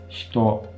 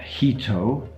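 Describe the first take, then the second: First: The first vowel is devoiced. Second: The first vowel is fully voiced. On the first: The speaker calls it right. "The first syllable there is basically devoiced completely" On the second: The speaker calls it wrong. "It's not hito"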